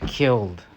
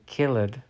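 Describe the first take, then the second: First: The ending is just a plain D sound. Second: The ending is said as an extra syllable. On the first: The speaker calls it right. "but it's just killed" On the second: The speaker calls it wrong. "We do not say killed"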